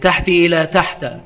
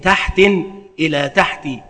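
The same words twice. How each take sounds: First: First word ends in kasra, second in fatha. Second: First word has tanwin, second ends in kasra. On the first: "بكسر الأول وفتح الثاني" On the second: "بتنوين الأول وكسر الثاني"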